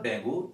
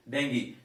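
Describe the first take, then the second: First: 'dengue' with a wrong 'oo' ending; mispronunciation. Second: 'dengue' with an 'ee' ending; correct pronunciation. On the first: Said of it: "It is not". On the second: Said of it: "It is actually". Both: Shown as a demonstration.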